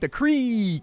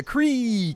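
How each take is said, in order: First: The word has a long 'ee' vowel. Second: The same.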